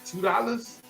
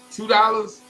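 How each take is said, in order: First: High-pitched, restrained disbelief; incredulous question. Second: High-pitched, forceful disbelief; incredulous repeat. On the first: Boy questions the small payment. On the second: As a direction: push the amount out as an affronted question. Boy repeats the amount, more forcefully. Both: Retold or imitated.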